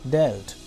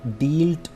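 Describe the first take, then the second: First: The vowel is a short e sound. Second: The vowel is a long ee sound. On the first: The speaker calls it right. "बल्कि डेल्ट" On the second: The speaker calls it wrong. "डील्ट नहीं"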